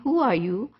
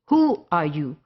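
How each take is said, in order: First: It sounds like a plain, curious question. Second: It sounds rude and dismissive, stressing 'who'.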